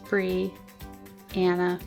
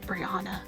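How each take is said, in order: First: The name is said with a Southern drawl. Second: The name is said in a plain, common way. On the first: The speaker calls it right. "the most southern way you can say Brianna" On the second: The speaker calls it wrong. "It's not Brianna"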